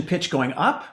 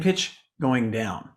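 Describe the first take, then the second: First: Voice rising. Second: Lower, slow descent on "going down"; voice falling. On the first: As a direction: pitch climbs as "up" is said. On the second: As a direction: let "down" sink low and slow. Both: Shown as a demonstration.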